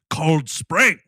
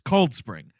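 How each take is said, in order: First: The stress falls on the word Spring. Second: The stress falls on the word Cold. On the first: The speaker calls it wrong. "Everyone in this movie is Cold Spring" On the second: The speaker calls it right. "The accentuation is on the word cold, not the word spring"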